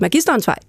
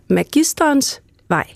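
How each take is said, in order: First: Only the first word has main stress; 'vej' is weaker. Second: Both words carry full main stress. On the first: The name is written as one word. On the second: The name is written as two words.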